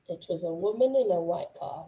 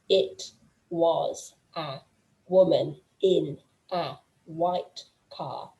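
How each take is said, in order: First: The words run together and blend into each other. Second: Each word is said separately, without linking. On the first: "some things overlap, some things kind of bleed into each other" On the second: "everything is protected, everything is separate"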